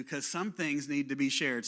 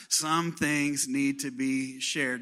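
First: Said in the usual way. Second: Slow, drawn-out congregation line; slow call-and-response. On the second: Shown as a demonstration. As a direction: stretch it out for everyone to repeat. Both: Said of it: "So everybody say it out loud".

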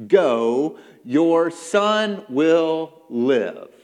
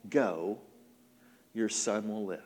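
First: Loud, very slow, weighty pronouncement; booming, drawn-out command; commanding declaration. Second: Low, soft, understated reply; gentle, low-voiced dismissal; calm assurance. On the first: Acted. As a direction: proclaim each word separately at full voice. Preacher repeats Jesus' words forcefully. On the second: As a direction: say it quietly with a pause after the first word. Jesus answers gently, smiling.

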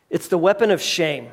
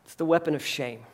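First: Said in the usual way. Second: Much softer and lower, a grave hushed reveal. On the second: Real, not acted. Preacher revealing Satan's weapon to the congregation, hushed. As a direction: let the word sink in quietly.

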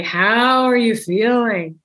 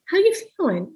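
First: Slow, deliberate, overly earnest check-in question; stiff formal question. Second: Light, easygoing and higher pitched; casual open question. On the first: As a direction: ask it slowly, like a formal interview. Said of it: "You don't have to say". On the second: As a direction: toss it off casually, like you're just chatting. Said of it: "You kind of ask it a little open". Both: Shown as a demonstration.

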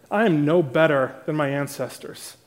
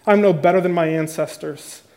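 First: Cynical. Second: Said in the usual way. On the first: Shown as a demonstration. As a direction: let the bitterness seep into every word. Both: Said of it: "Can you hear the cynicism?".

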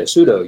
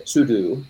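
First: Sudo pronounced SOO-DOH, like pseudo. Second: Sudo pronounced SOO-DOO. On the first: Explaining the joke reading that means false, sudo as "soo-doh". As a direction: end sudo on a long O, "doh". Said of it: "And if you say sudo". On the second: Explaining the super-user reading, sudo as "soo-doo". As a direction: say sudo with a final "doo", like the verb do. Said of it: "So if you say sudo". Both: Shown as a demonstration.

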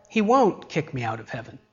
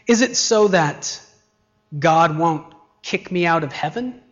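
First: HEAVEN falling, no question; settled statement. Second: Rising tone on HEAVEN; questioning. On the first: Preacher answering the believer's own doubt, settled. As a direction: state it as settled, dropping away after WON'T. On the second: Preacher voicing a believer's doubt, questioning. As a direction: ask it, lifting up at HEAVEN. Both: Acted.

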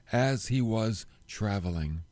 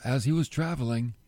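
First: "as he was traveling" said slowly, leaning on "he"; slow down and savour "as he was traveling"; savoured phrase. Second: Said in the usual way. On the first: Shown as a demonstration. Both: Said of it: "I like that phrase".

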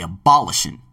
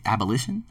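First: "abolition" said a-BOL-ishun, stressed on the second syllable; mispronounced abolition. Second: "abolition" said ab-uh-LISH-un, stressed on the third syllable; retry "abolition" as ab-uh-LISH-un, questioning; corrected abolition. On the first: Host misreading the book aloud, "abolition" as a-BOL-ishun. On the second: Host checking the word aloud, "abolition" as ab-uh-LISH-un with rising doubt. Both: Real, not acted. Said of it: "or the abolition, abolition, whatever".

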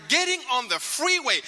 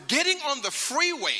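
No difference in how they are said.

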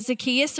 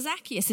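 First: "Zacchaeus" as zuh-KEE-us; second-syllable stress. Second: "Zacchaeus" as ZAK-ee-us; first-syllable stress. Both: Shown as a demonstration. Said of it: "I don't know whether it is for you".

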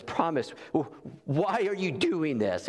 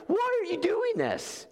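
First: Said in the usual way. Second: Much higher and slow, stunned question; bewildered. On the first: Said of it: "Jean Valjean says". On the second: Acted. Jean Valjean to the bishop, stunned and much higher. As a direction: let it rise in total disbelief. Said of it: "He's like".

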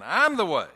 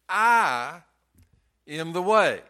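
First: I'm punched loud at the start; stress on I'm. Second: I punched loud and held; stress on I. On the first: Preacher repeating to the church, stress on I'm. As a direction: lean hard on I'm. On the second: Preacher stressing I to the congregation, emphatic. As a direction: hit the word I hard. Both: Shown as a demonstration. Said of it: "I is emphatic".

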